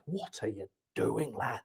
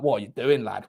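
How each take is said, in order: First: Slow, very low and soft; hushed disbelief. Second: Said in the usual way. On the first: Real, not acted. Commentator to player over his haircut, hushed disbelief. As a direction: drop almost to nothing, drawing the words out.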